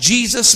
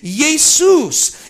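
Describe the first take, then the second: First: The name is said with English pronunciation. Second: The name is said with Greek pronunciation. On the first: "I'm saying it in English" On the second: "If I were saying it in Greek, I would say Jesus"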